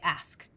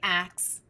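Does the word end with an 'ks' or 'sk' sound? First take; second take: sk; ks. First: The word ends with an 'sk' sound. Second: The word ends with a 'ks' sound. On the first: "we say ask" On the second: "we don't say ax"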